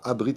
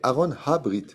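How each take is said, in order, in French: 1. Le deuxième mot commence par une voyelle. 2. Le deuxième mot commence par un son h. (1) "c'est pas Abrit avec un Aleph" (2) "C'est marqué Aaron Habrit. C'est un He"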